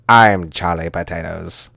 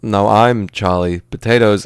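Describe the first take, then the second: First: Slow, grand declaration; mock-dramatic, measured proclamation; Sidney Poitier. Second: Slow, halting rebuttal; mock-dramatic, drawn-out counterclaim; Christopher Walken. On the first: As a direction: claim the name with stately movie-star weight. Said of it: "Poitier is gonna be like". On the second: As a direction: insist on the name with odd pauses. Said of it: "Walken's gonna be like".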